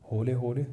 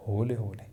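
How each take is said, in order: Both takes have the same delivery.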